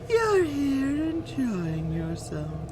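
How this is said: It is said in a creepy voice imitating Him.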